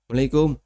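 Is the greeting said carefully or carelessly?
carelessly. The greeting is mumbled with its start dropped. The greeting is said only out of habit. The speaker calls it wrong. "Ini nggak serius"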